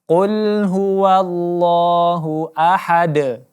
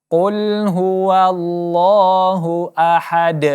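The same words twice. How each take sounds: The two takes are said the same way.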